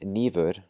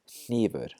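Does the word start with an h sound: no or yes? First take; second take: no; yes. First: The word starts without any h sound. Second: The word starts with a breathy h sound. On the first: The speaker calls it wrong. "Instead of saying nívur" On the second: The speaker calls it right. "we're going to say hnífur"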